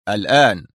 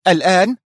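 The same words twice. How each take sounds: First: Short, stern statement with a falling end. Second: Higher, louder question rising at the end; agitated echo. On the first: Boss ordering Sonia to leave at once, stern. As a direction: answer as a firm order. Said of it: "أجاب في صرامة". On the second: Sonia echoing her boss's order, agitated. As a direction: throw it back in agitated disbelief. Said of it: "تكرر في عصبية". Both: A narrator's reading.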